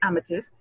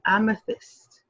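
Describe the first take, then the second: First: It is said quickly with a blurred 'th'. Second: It is said carefully with a clear 'th'. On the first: The speaker calls it wrong. "You just can't say amethyst" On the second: The speaker calls it right. "You have to pronounce it properly. With care, with love"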